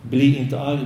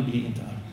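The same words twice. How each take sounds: First: Said in the usual way. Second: Softer, hushed second take; quiet repeat. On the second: Shown as a demonstration. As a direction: let the repeat sink down to almost nothing. (tyst, dämpad upprepning)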